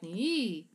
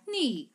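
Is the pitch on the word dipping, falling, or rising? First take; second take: dipping; falling. First: The pitch dips down then rises back up. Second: The pitch falls from high to low. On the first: "or a scoop like ni" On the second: "or top to the bottom like ni"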